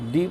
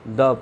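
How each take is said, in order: First: The word is said with a long 'ee' vowel. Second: The word is said with a short 'uh' vowel. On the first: The next word starts with a vowel sound. "Vowel से शुरू होगा डी पढ़ेंगे" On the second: The next word starts with a consonant sound. "Consonant से शुरू होगा द पढ़ेंगे"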